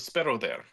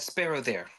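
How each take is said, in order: First: It is said in a put-on Russian accent. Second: It is said in the speaker's ordinary accent.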